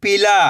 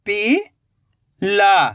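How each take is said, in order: First: "पीला" joined as "pila" in one go; blended word. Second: "पीला" slowly split, rising "pi", long pause, "la"; split into syllables. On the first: Teacher giving learners the result, "पीला" blended. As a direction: say "पीला" whole, no gap. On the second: Teacher building the word for learners, "पीला" in slow pieces. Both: Shown as a demonstration. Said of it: "तो मिलके बन जाएगा".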